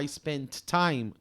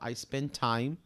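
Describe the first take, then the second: First: The two t sounds are said separately. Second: The two t sounds are joined into one. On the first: "em vez de eu falar I spent time" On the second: "eu falo I spent time, Você junta as coisas"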